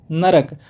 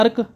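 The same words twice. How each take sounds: First: नरक said in three sounds, na-ra-k; नरक with the full middle a, the right way; नरक spoken na-rak, correct form; correct pronunciation. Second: नर्क said as one syllable, nark; clipped नर्क with no middle vowel, the wrong way; नर्क squeezed into nark; wrong pronunciation. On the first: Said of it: "नरक बोलना है आज से". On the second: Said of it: "गलत बोल रहे हो भैया". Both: Shown as a demonstration.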